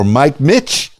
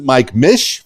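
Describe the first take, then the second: First: The name ends with a hard 'ch' sound. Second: The name ends with a soft 'sh' sound. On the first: The name is said like the name Mitch. "Mike Mitch because it looks like Mitch, like the name Mitch" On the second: The name is said like the start of Michigan. "Mike Mish for Michigan"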